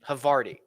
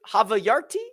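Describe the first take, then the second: First: The word is said with three syllables. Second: The word is said with four syllables. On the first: The speaker calls it right. "that would make more sense" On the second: The speaker calls it wrong. "Did I say that right?"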